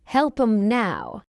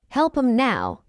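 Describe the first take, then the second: First: Measured "Help 'em now"; slow model. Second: Quick, linked "Help 'em now"; fast English. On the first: Teacher models the phrase for learners first, slowly. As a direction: take time over "Help 'em now". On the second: Teacher trains learners' ears, fast. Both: Shown as a demonstration. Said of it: "fast English is not difficult".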